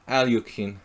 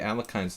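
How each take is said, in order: First: The middle syllable sounds like 'lyokh'. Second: The middle syllable sounds like 'lekh'.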